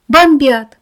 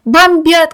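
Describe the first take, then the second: First: Panicked loud cry; shout. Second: Higher, louder panicked yell; louder shout. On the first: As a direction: yell the air raid warning. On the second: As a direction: scream it even higher. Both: A narrator's reading. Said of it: "кричал кто-то на улице".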